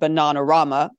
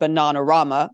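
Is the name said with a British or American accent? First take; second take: British; British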